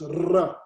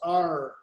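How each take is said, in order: First: The R is made at the back of the throat. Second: The R is an English-style R. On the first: The speaker calls it right. "It's pronounced R" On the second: The speaker calls it wrong. "it's not pronounced R"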